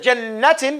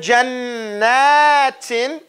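First: The vowel after 'jann' is held short. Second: The vowel after 'jann' is held long. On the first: The speaker calls it wrong. "You don't say jannatin" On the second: The speaker calls it right. "So you extend it a little longer"

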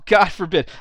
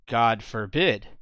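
First: It is read with a mocking, sarcastic tone. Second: It is read flatly, without expression. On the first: The idea is being ridiculed. "But what's really being said" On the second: The words are taken at face value. "deadpan reading"

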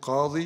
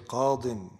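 First: The word ends in a long 'ee' vowel. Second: The word ends in an 'in' sound. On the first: "Instead of saying qadi" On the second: "you say qadin"

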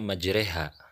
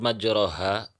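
First: The vowel after r leans toward e. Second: The vowel after r is an open a. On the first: "maka cara membacanya majreha" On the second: "Pada lafad majroha"

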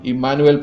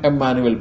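First: The name is said in its Hebrew form. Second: The name is said in its Greek form. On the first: This is the form found in the Old Testament. "पुराने विधान में हम इम्मानुएल पाते हैं क्योंकि यह इब्रानी शब्द है" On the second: This is the form found in the New Testament. "नए विधान में इम्मानुएल पाते हैं"

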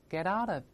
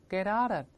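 Both takes have the same delivery.

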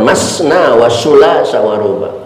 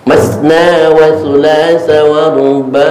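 First: The consonant is a hissing s sound. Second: The consonant is a soft th sound. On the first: The speaker calls it wrong. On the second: The speaker calls it right. "Ujung lidah nempel gigi atas"

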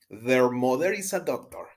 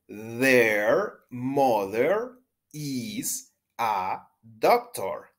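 First: The sentence is spoken at a faster pace. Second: The sentence is spoken at a slower pace.

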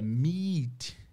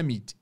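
First: The vowel is a long, stretched ee sound. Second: The vowel is a short i sound. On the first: The speaker calls it right. "é meet" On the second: The speaker calls it wrong. "não é meet"

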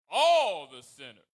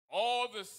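First: The word all is strongly stressed. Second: The word all is not especially stressed.

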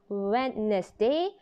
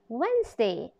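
First: The word is said with three syllables. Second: The word is said with two syllables. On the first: The speaker calls it wrong. "Not Wednesday" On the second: The speaker calls it right. "but Wednesday"

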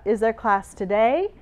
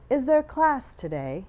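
First: The voice goes up at the end. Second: The voice goes down at the end. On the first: This is how an American speaker asks it. "or American will go up" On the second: This is how an English speaker asks it. "And if you're English, you would say"

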